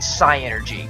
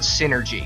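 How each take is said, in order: First: The word begins with a long 'sigh' sound. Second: The word begins with a short 'sin' sound. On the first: The speaker calls it wrong. "I misread synergy as psi energy" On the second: The speaker calls it right. "calling it that"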